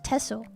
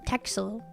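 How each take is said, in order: First: The middle consonant is pronounced as 's'. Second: The middle consonant is pronounced as 'ks'. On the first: The speaker calls it right. "It's pronounced Tessel" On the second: The speaker calls it wrong. "You don't pronounce it Texel"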